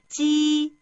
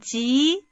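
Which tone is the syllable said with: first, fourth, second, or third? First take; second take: first; second. First: The pitch stays high and level. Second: The pitch rises from mid to high.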